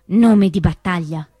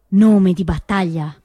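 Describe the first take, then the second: No difference in how they are said.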